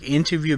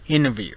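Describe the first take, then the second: First: The T is clearly pronounced. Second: The T is left silent.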